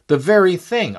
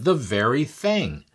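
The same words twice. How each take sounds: First: Louder, higher delighted exclaim; the second time, burst out with delight; excited repeat. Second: Said in the usual way. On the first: Retold or imitated.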